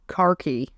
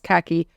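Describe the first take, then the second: First: It is said in a British accent. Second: It is said in an American accent.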